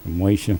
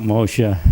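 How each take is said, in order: First: "Moshe" said as MAY-shuh; AY vowel in the first syllable of "Moshe"; variant pronunciation. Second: "Moshe" said as MOH-shuh; long O in the first syllable of "Moshe"; variant pronunciation. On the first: Trying another form of the name, "Moshe" as MAY-shuh. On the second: Recalling names he talked about, "Moshe" as MOH-shuh. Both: Shown as a demonstration. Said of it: "I would talk about Moshe".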